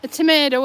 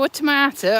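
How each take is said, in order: First: Tomato said the American way, toh-MAY-toh; American tomato, mildly exaggerated. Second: Tomato said the British way, toh-MAH-toh; British tomato, set against the American one. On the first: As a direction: give tomato the long AY of American speech. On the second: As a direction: give tomato the open AH of British speech. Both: Shown as a demonstration. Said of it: "What do you call a tomato?".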